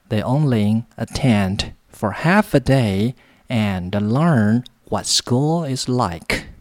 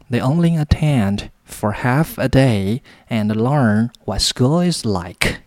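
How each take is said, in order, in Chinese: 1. 这个句子读得比较慢。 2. 这个句子读得比较快。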